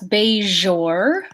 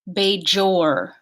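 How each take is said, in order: First: The middle consonant is a soft fricative without a stop. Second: The middle consonant begins with a stop before the fricative.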